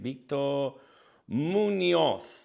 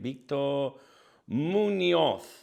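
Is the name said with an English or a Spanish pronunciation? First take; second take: Spanish; Spanish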